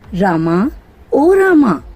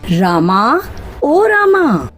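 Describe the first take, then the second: First: The name is called louder than before. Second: The name is shouted very loudly.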